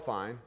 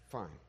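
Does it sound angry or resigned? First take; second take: angry; resigned. First: It sounds angry, like slamming a door. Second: It sounds resigned and defeated.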